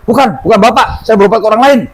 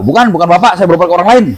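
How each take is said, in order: First: Higher, a hint of an annoyed retort; mock angry denial. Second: Lightly voiced retort, close to plain; just quote her denial, understated; mild retold denial. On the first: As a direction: brush him off, a touch irritated. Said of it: "malah marah dia". (bantahan agak kesal dengan nada tinggi) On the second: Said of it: "nggak malu?". (kutipan bantahan yang datar dan ringan)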